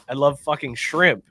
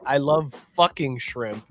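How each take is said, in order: First: "shrimp" carries the weight, "fucking" an unstressed filler; stress on shrimp. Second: "love" leaned on, "fucking" and "shrimp" light, slow; stress on love. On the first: Host showing the right version, stress on "shrimp". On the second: Host reading the chat's complaint, stress on "love". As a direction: lean on "love" so "fucking" reads as a verb. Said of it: "you put the emphasis on the wrong place". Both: Shown as a demonstration.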